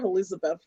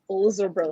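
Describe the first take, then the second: First: The name is said in a plain, ordinary way. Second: The name is said with an affected, posh flourish. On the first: The speaker calls it wrong. "It's not Elizabeth" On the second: The speaker calls it right. "It's Elizabeth. You know, you gotta have the her"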